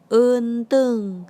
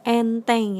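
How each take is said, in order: First: The first vowel is a deeper eu sound. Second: The first vowel is a clear e sound. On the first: It means mirror. "E-nya itu E lebih dalam gitu" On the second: It means easy. "kalau E curek pelafalannya E"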